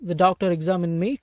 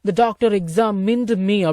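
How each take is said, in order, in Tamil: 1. 'examined' இல் கடைசி d விடப்படுகிறது. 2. 'examined' இல் கடைசி d தெளிவாக உச்சரிக்கப்படுகிறது.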